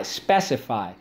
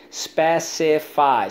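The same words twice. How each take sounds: First: Said in the usual way. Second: "Specify" slowly as spe, ci, fy, pitched up; slow, higher breakdown of "Specify"; syllable by syllable. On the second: Shown as a demonstration. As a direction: sound out "Specify" in three beats. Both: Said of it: "So let's go".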